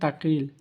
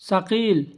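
First: The word begins with a t sound. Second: The word begins with an s sound. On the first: The speaker calls it wrong. "আর আমরা বলতাম আগে তাকিল ... ভুল" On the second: The speaker calls it right. "সাকিল অর্থ ভারী"

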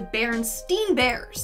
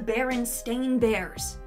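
First: The second part of the name sounds like 'steen'. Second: The second part of the name sounds like 'stain'. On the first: The speaker calls it wrong. "I remember it being the Berenstain Bears, spelled S-T-E-I-N" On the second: The speaker calls it right. "apparently it's always been the Berenstain Bears. Stain, S-T-A-I-N"

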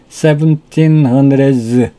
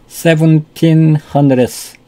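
First: The final sound is a voiced buzzing z. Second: The final sound is a voiceless hissing s. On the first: "그러면 즈 발음으로 하냐?" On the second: "바람 소리만 내면 스 소리죠"

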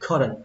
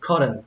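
No difference in how they are said.

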